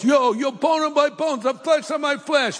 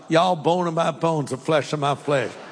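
First: It is said in an East Coast accent. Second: It is said in a Southern accent.

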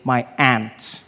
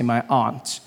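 First: It is said in an American accent. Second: It is said in a non-American accent.

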